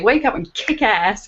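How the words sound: It is said in an American accent. "It's got to be in an American accent"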